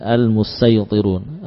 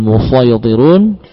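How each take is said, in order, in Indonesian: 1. Bunyi s itu adalah bunyi sin yang ringan dan biasa. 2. Bunyi s itu adalah bunyi sad yang berat dan tebal. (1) "dibaca dengan mengganti sad dengan sin" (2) "Dibaca seperti yang tertulis"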